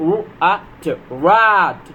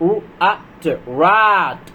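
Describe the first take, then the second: No difference in how they are said.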